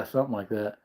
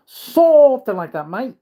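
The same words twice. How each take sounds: First: Said in the usual way. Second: High, loud, slow Aussie voice; mock Australian accent. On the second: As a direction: exaggerate it like a cartoon Australian. Repeats phrase as mock Australian.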